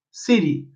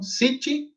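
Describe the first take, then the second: First: "city" with a flapped t, falling low; American city. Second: "city" with a crisp t, rising; crisp t in "city", softly; British city. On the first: Teacher contrasting American city with British. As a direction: flap the t in "city". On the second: Teacher contrasting British city with American. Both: Shown as a demonstration. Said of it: "diferenciação de pronúncia".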